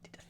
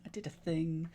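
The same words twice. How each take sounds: First: Soft unvoiced whisper. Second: Said in the usual way. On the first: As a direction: breathe it out secretly. Whispered then repeated aloud.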